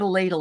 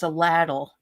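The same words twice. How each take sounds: First: The word is said in a standard accent. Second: The word is said in a Kentucky accent. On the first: This is how the word is not said there. "it's not a ladle" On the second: This is how the husband says it. "He's from Kentucky, ... it's a ladle"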